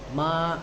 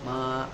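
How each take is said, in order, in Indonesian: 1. Nadanya naik dari tengah ke tinggi. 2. Nadanya tetap tinggi dan datar, ditahan lama. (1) "nadanya dari tengah ke tinggi" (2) "nada pertama itu yang suara datar tuh, yang suara tinggi, datar tapi panjang"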